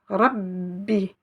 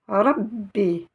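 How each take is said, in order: Both takes have the same delivery.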